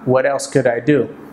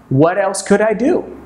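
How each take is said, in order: First: The pitch stays level through the question. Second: The pitch moves up and down through the question. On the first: The speaker calls it wrong. "they haven't learned intonation" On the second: The speaker calls it right. "the pitch or the, the, the notes that we're using go up and down"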